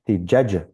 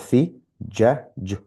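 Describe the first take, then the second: First: All the letter sounds run together without pauses. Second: Each letter sound is said separately with pauses. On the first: "then I read it together in one in one breath" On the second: "one letter at a time"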